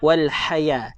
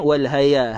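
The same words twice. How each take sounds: First: The h sound is breathy, with air pushed out. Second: The h sound is deep, with little air. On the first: The speaker calls it right. "kita keluar angin" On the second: The speaker calls it wrong. "bukan bukan bunyi macam ni"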